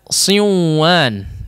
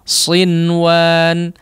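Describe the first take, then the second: First: The n sound merges into the next sound. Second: The n sound is pronounced clearly. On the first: The speaker calls it wrong. "Tidak juga dibaca siwan" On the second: The speaker calls it right. "maka hukumnya diizharkan"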